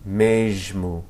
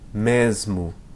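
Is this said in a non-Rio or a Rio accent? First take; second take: Rio; non-Rio. First: The word is said in a Rio accent. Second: The word is said without a Rio accent.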